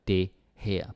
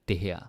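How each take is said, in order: First: The two words are said with space between. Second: The two words are run together without space. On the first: The speaker calls it wrong. "not det her" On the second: The speaker calls it right. "also there's less spacing"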